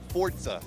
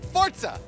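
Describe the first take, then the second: First: It is said at ordinary speed and volume. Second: It is said loudly and forcefully. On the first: "say it again" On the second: "now say it loud"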